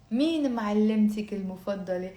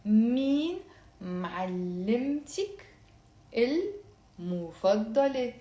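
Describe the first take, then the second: First: Brisk natural pace; faster. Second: Slow, careful syllables. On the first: Teacher giving the question at full speed. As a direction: say it quickly like a native. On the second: Teacher slowing down for students to repeat. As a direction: draw each word out for learners. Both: Shown as a demonstration. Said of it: "very slowly and then faster".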